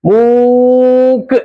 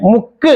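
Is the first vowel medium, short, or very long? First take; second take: very long; short. First: The first vowel is stretched out very long. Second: The first vowel is not lengthened at all. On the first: "ഒത്തിരി നീട്ടി നോക്കേ" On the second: "ഒട്ടും നീട്ടാതെ"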